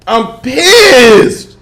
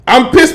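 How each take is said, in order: First: Higher, louder mock-indignant cry; playful outrage, high and loud; emphatic complaint. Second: Annoyed outburst. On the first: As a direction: lean hard on pissed, drawn out. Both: Real, not acted.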